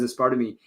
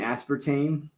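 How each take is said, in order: First: Each vowel is pronounced fully, Spanish-style. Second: The vowels are pronounced the usual English way. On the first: The speaker calls it wrong. "you pronounce like the vowels, like each vowel" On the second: The speaker calls it right. "you mean aspartame?"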